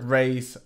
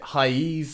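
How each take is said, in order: First: The word sounds like English 'raise'. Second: The word has a Portuguese-style ending, like 'ra-eez'. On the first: "I call this trick raise" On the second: "I think that's the proper Portuguese pronunciation"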